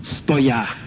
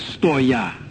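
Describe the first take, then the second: First: The word ends in a 'ya' sound. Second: The same.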